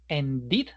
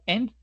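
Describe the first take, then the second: First: The ending adds an extra syllable. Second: The ending is only a d sound. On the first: The speaker calls it right. "ended, pasado" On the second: The speaker calls it wrong. "lo coherente sería unificarlo con otro sonido que también vibre... es difícil pronunciarlo"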